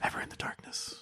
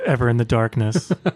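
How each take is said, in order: First: The phrase is whispered very quietly. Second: The phrase is spoken aloud in normal voice. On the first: "I'm whispering" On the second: "before they say it loud enough for our audience to hear them"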